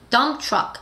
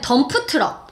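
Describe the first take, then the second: First: It is said with English sounds and syllables. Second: It is said with Korean-style syllables and vowels. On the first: The speaker calls it right. "덤프 아니고 트럭 아니고 dump truck" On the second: The speaker calls it wrong. "우리는 덤프 트럭. 덤프 트럭이라는 발음에 익숙하니까"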